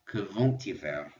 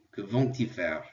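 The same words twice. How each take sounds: First: Slow, "vont-ils" said with a clear linking T before ils; teacher slows to show the T sound in "vont-ils". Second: Said in the usual way. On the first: Shown as a demonstration. Teacher demonstrating for students, "vont-ils" with a pronounced T. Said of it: "I'm gonna pronounce it because il starts with an I". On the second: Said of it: "And notice because of the T".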